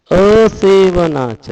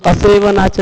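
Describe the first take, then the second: First: असेवनाच very slow, every syllable stressed; full emphasis. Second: Said in the usual way. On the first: Shown as a demonstration. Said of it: "पूरा जोर देके बोलना है". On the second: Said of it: "नहीं बोलना है".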